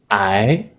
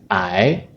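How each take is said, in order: First: The word is said with the second tone. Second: The same.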